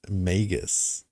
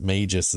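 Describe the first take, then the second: First: The first syllable sounds like 'Meg'. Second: The first syllable sounds like 'mage'. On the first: The speaker calls it wrong. "some people pronounce it Magus ... not Meg" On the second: The speaker calls it right. "I pronounce it Magus as well ... it's mage"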